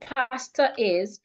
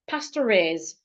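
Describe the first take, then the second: First: No R sound; the two words stay separate. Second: An R sound joins pastor smoothly to is. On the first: The speaker calls it wrong. "instead of saying pastor is" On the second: The speaker calls it right. "I'll pronounce it as one"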